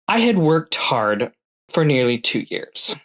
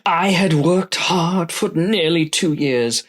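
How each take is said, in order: First: It is read in an ordinary speaking voice. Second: It is read in a special put-on voice. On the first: The speaker calls it wrong. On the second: The speaker calls it right.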